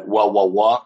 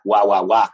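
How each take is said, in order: First: Said in the usual way. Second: Nonsense English with a Spanish accent. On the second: Shown as a demonstration. Guest showing how Spaniards sound in English, Spanish accent. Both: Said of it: "con acento español".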